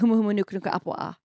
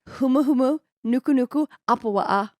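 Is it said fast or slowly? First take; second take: fast; slowly. First: It is said at normal, quick speed. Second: It is said slowly and deliberately.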